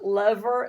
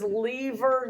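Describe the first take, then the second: First: Lever with a short e, LEV-er; the rejected lever, said LEV-er; short-e pronunciation. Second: Lever with a long e, LEE-ver; long-e pronunciation. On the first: Teacher quotes a man rejecting lever as LEV-er. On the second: Teacher quotes a man correcting them, lever as LEE-ver. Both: Retold or imitated. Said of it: "he says lever, not lever".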